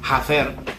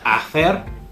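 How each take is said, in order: First: The h at the start is sounded. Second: The h at the start is silent. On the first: The speaker calls it wrong. "don't make that sound. So don't say hacer" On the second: The speaker calls it right. "It's hacer"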